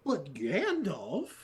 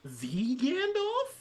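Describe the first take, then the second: First: Incredulous. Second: Slow, very high, stretched disbelief; incredulous. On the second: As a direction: drag out the name in disbelief. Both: Retold or imitated. Rising disbelief rant.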